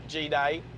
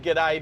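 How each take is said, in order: First: The G is said as its letter name. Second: The G runs straight into day. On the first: The speaker calls it wrong. "you said it G-day, that would be an Americanism because you said it wrong" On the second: The speaker calls it right. "if you said g'day"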